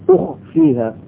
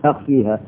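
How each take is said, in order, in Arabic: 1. الحركة الأولى هي صوت 'u'. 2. الحركة الأولى هي صوت 'a'. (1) "بضم الألف هكذا وضم الهمزة" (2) "وهي بالفتح بمعناها اظهر"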